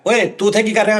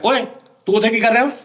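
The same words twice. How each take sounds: First: The line is said flatly, with little energy. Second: The line is said with lively, expressive energy. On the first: The dub will not fit the on-screen performance. The speaker calls it wrong. "ਹੱਥ ਇੰਝ ਰੱਖੇ ਨੇ" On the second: The dub will fit the on-screen performance. The speaker calls it right. "ਭਾਵੇਂ ਸ਼ੀਸ਼ਾ ਵੇਖ ਕੇ ਕਹਿ ਰਿਹਾ"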